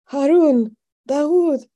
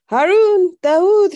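First: High, loud summons, each name separate; calling out names. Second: Very high, loud holler of names; calling out. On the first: Shaking father calling for his sons, urgent cry. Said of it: "calling for her other brothers". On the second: Sister summoning brothers in case they're needed, loud call. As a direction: holler each name, pitched way up. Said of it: "she called". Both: A narrator's reading.

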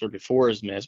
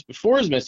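First: Said in the usual way. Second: "before" punched much higher in pitch; "before" raised sharply, then falling away; stress on before. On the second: Real, not acted. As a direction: hit "before" high, as a correction. Repeats it to correct himself.

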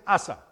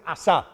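First: Asa said "Á-sa", weight on the first A; stress on first A. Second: Asa said "a-SÁ", weight on the last A; stress on final A. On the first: Preacher quoting Latin American translations, Asa stressed on the first A. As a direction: stress the opening syllable of Asa. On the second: Preacher quoting Spain's Bible translations, Asa stressed on the final A. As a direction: land on the second syllable of Asa. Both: Shown as a demonstration. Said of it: "con acento en la A".

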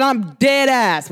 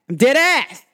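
First: Said in the usual way. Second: Emphatic New York-New Jersey accent. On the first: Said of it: "when I say that in my". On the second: Shown as a demonstration. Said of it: "New York accent".

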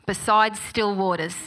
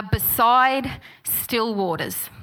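First: Said in the usual way. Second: Slow, deliberate. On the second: Shown as a demonstration. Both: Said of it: "And they are".

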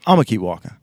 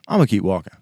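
Both takes have the same delivery.

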